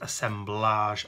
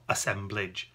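First: The ending sounds like the end of collage. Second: The ending does not sound like collage. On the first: The speaker calls it right. "that's why it's referred to as assemblage" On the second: The speaker calls it wrong. "not assemblage"

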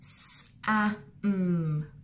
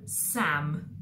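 First: The word is sounded out with gaps. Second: The word is said smoothly without gaps. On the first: "we're going to have a go at Fred talking it" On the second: "then we'll blend it together at the end"

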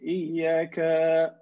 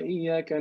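First: A vowel in the word is held long. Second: The vowels in the word are kept short. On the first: More than one divinity is being addressed. The speaker calls it wrong. "this is plural, talking to more than one person here" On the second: One God is being addressed. The speaker calls it right. "Right or wrong?"

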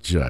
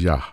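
First: The word begins with a J sound. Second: The word begins with a Y sound. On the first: The speaker calls it wrong. "It's not Jah. It couldn't be" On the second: The speaker calls it right. "It was Yah"

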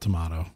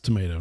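First: Tomato is said with the British vowel. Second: Tomato is said with the American vowel. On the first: The speaker calls it wrong. "not tomato. All you British people, sorry" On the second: The speaker calls it right. "And it's tomato"

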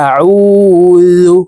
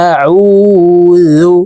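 Both takes have the same delivery.

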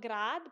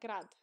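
First: The vowel is said long. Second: The vowel is said short. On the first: The speaker calls it wrong. "not grad" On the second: The speaker calls it right. "I think it should be short"

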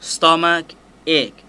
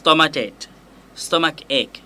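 First: Said slowly with the two words kept apart. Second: Said quickly with the two words slightly linked. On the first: "ถ้าอ่านช้าๆเสียงจะต้องแยกกันนะครับ" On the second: "ถ้าอ่านเร็วๆก็จะมีลิงก์ขึ้นหัวนิดนึง"

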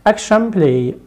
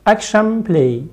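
The two takes are said the same way.

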